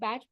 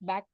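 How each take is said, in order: First: The name ends with a ch sound. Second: The name ends with a k sound. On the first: "कुछ अ, लोग बैच pronounce करते हैं" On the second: "कुछ लोग बैक pronounce करते हैं"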